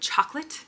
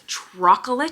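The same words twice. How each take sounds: First: It is pronounced in the ordinary standard way. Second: It is pronounced in a childlike, nonstandard way. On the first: This is how the word is normally said. "instead of chocolate" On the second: This imitates how a small child says it. "He says chocolate"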